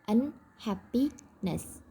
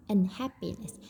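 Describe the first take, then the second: First: Unhappiness very slow, with gaps between un, happy, ness; teacherly slow un... happi... ness; word broken into parts. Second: Said in the usual way. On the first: Shown as a demonstration. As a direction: split unhappiness into three separate slow parts. Teacher breaks word into morphemes.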